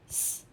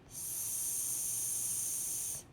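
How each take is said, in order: First: "S" as a short voiceless "ss"; fast sound. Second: "S" as a long voiceless "sss"; slow sound. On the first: Teacher answers "say it fast", "S" said very short. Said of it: "Say it fast". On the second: Teacher models a sound for children, "S" held long. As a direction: hold the sound of "S" steadily. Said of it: "say a sound slowly". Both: Shown as a demonstration.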